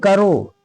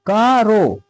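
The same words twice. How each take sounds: First: करो run together as one word, "karo"; syllables joined. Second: का, रो as two long syllables, "kaa, ro"; syllables read separately. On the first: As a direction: say करो without any break after the "ka". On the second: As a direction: split का from रो with a pause. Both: Shown as a demonstration. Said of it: "तो काफ को अलग पढ़े".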